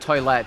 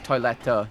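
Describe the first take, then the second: First: The word ends without a clear final vowel. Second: The word ends with a clear, hard final vowel. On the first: The speaker calls it wrong. "it's not like toilette" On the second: The speaker calls it right. "you guys have like a hard e at the end of it"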